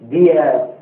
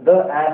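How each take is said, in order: First: 'The' is said with a long 'thee' vowel. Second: 'The' is said with a short 'thuh' vowel. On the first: The speaker calls it right. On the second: The speaker calls it wrong. "த த ஆஸ் அப்படின்னா தப்பு"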